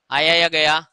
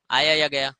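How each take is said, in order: First: Louder repeat. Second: Said in the usual way. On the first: Shown as a demonstration. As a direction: ask again louder for the class.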